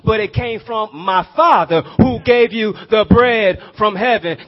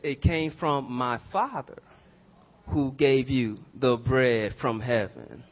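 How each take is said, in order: First: It is said at normal speed. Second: It is said slowly.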